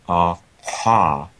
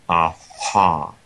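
Both takes have the same delivery.

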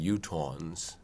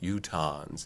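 First: The second vowel is a rounded aw sound. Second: The second vowel is an unrounded ah sound. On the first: This is not the name locals use. The speaker calls it wrong. "rather than Utahns" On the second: This is the name locals use for themselves. The speaker calls it right. "their name for the people from Utah is Utahns"

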